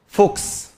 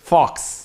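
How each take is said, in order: First: The vowel sounds like a rounded 'oh'. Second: The vowel sounds like an open 'ah'. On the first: The speaker calls it wrong. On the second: The speaker calls it right.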